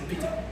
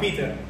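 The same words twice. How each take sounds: First: It is said in a British English accent. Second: It is said in an American English accent. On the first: "Si es en inglés británico sería Peter. Así" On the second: "Por eso nos quedamos con el americano"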